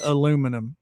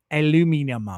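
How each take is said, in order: First: Said in the usual way. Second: "aluminum" attempted as al-yoo-MIN-ee-um; imitated Aussie pronunciation. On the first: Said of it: "I pronounce it". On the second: Streamer imitating Aussie friend, "aluminum" as al-yoo-MIN-ee-um. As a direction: try "aluminum" the Australian way, with an extra "ee" syllable. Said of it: "or however she pronounces".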